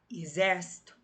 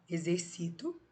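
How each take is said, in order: First: Exército with open ér stressed; e-XÉR-cito, hit the open ér. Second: Exercito with stress on ci; e-xer-CI-to, lean on ci. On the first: (exército, com força no XÉR) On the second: (exercito, com força no CI) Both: Shown as a demonstration. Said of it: "Então, ó".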